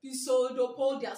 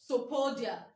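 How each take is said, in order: First: Pisodopodia with the silent P sounded as "pi"; every written part of Pisodopodia voiced; spelling pronunciation. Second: Sopodia with the opening P silent; correct pronunciation. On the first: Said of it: "So that I'll be able to write down". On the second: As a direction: say Sopodia starting straight on the S. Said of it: "The, the correct pronunciation". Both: Shown as a demonstration.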